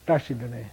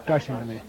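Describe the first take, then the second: Both takes have the same delivery.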